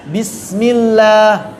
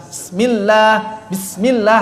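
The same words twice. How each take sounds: First: Bismillah slowly, with the s drawn and flowing; flowing sin. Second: Bismillah with the sin cut short. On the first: Teacher modelling a flowing sin. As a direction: let the s of Bismillah flow. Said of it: "Harusnya dialirkan rakhawahnya". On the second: Teacher imitating the short sin. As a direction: say bismillah clipping the s. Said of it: "sinnya kurang memanjang". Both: Shown as a demonstration.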